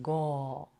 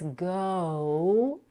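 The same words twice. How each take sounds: First: The vowel is cut short without a glide. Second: The vowel glides fully from O toward U. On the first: The speaker calls it wrong. "and not go" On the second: The speaker calls it right. "Make sure not to cut the vowel. It's go"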